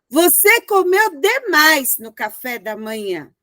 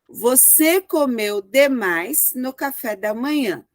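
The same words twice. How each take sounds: First: It is exclaimed with an indignant tone. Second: It is said as a plain falling statement.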